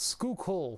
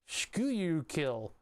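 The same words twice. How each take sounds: First: The name is said with its local pronunciation. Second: The name is sounded out the way it looks. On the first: "but it's Schuylkill" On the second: "You spell it Schuylkill"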